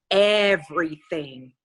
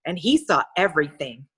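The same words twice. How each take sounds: First: EVERYTHING stretched out slowly; drawn-out emphasis. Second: Said in the usual way. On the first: A narrator's reading. Narrator repeating what Ronald saw, EVERYTHING drawn out ominously. Repeats the word for dramatic effect.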